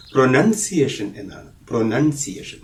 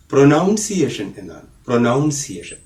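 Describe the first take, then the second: First: "പ്രൊനൗൺസിയേഷൻ" said pro-NUN-see-ay-shun; short "nun" in "പ്രൊനൗൺസിയേഷൻ", no "ow"; correct pronunciation. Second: Pronunciation said as "പ്രൊനൗൺസിയേഷൻ", with NOUN in the middle; common mispronunciation. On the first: Teacher giving learners the right word, pronounced with "nun". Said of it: "അങ്ങനെയല്ല അത് പറയേണ്ടത്". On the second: Teacher showing what many people say, mispronounced with "noun". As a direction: say "പ്രൊനൗൺസിയേഷൻ" with an "ow" second syllable. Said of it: "അത് തെറ്റാണ്". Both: Shown as a demonstration.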